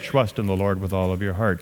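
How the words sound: It is read in a flat, unemotional way. The speaker calls it wrong. "you don't say"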